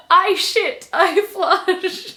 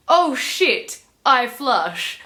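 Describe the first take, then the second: First: High, loud mock declaration; comic misreading. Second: Said in the usual way. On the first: Reader showing how they misread the book, loud comic declaration. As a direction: proclaim it loudly, pitch jumping up. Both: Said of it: "But I read it as".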